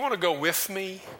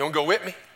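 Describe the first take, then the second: First: The word 'with' ends in a th sound. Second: The word 'with' ends in a t sound. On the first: "Like I'll go" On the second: "They say wit"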